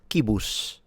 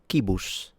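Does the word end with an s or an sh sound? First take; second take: sh; sh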